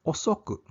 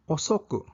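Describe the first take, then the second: No difference in how they are said.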